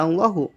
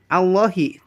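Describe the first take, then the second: First: The word ends with a u vowel. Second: The word ends with an i vowel. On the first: The speaker calls it wrong. "Dan tidak" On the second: The speaker calls it right. "ha dibaca jr"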